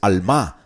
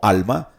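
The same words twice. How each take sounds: First: The stress is on the last syllable. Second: The stress is on the first syllable. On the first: It is the Hebrew word for young woman. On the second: It is the ordinary Spanish word for soul.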